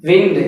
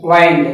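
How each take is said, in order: First: "విండ్" with short i, as in window; short-i pronunciation. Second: "వైండ్" with long i, as in find; long-i pronunciation. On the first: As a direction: say "విండ్" like moving air. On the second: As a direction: say "వైండ్" to rhyme with kind. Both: Shown as a demonstration. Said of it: "pronunciation is different".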